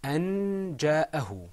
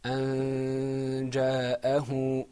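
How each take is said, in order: First: "أن جاءه" higher and louder, clear n; without ikhfa. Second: "أن جاءه" slow, n hidden in a long hum; with ikhfa. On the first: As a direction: sound the n of "أن جاءه" firmly, no long hum. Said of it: "this is pronounced without إخفاء". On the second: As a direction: chant "أن جاءه", holding a nasal hum before the j. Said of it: "With ikhfa, it's pronounced". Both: Shown as a demonstration.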